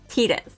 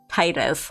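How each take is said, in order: First: The first syllable sounds like 'tee'. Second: The first syllable sounds like 'tide'. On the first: The name comes from the word Tita. The speaker calls it right. "the correct pronunciation is Titus, right? Because it's it's Tita" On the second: The name is read like an English word. The speaker calls it wrong. "I always read it as Titus, like the English word tide"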